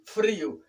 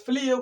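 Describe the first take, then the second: First: "frío" with a tapped R after F; "frío" as FRI-o; correct R. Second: "frío" said as "flío"; "frío" mispronounced with L replacing R; learner's L for R. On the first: Shown as a demonstration. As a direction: say "frío" with R, not L. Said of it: "sino con R". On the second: Retold or imitated. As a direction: imitate the mistake, "frío" with L after F. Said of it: "no es frío con L".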